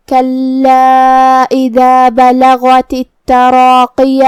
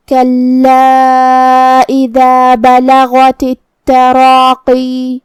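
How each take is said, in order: First: Quran recitation. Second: Slow chant, stopping on التراقی with long ی; Quran recitation with pause. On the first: Teacher recites the verse for students, slow chant. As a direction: chant the verse slowly, each letter clear. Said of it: "ہم زبر ظاہر کریں گے". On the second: Teacher shows stopping at التراقی, slow chant. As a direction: recite and hold the final ی of التراقی. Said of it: "التراقی پہ رکیں گے تو آخری میں مد یا ظاہر کریں گے". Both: Shown as a demonstration.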